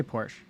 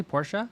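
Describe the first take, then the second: First: "Porsche" said as one syllable, PORSH; "Porsche" ending on the SH sound; one-syllable pronunciation. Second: "Porsche" said as POR-shuh; "Porsche" in two syllables, questioning rise; two-syllable pronunciation. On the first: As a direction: say "Porsche" with a silent final E. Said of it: "I say Porsche". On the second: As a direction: say "Porsche" with an added final uh. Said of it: "Do people say Porsche?". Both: Shown as a demonstration.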